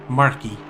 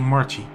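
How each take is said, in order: First: The middle consonant is a 'k' sound. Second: The middle consonant is a 'ch' sound. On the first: The speaker calls it right. "the pronounce is like Marquis" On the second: The speaker calls it wrong. "I keep saying Marchi"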